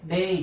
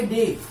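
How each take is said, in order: First: डे said carefully with the correct sound; right pronunciation. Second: डे said the wrong way, as one word like "day"; wrong pronunciation. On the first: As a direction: demonstrate the correct डे slowly. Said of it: "तो न कि डे बोलना". (डे का सही उच्चारण) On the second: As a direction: give डे the wrong reading first. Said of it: "wrong होगा।". (डे का गलत उच्चारण) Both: Shown as a demonstration.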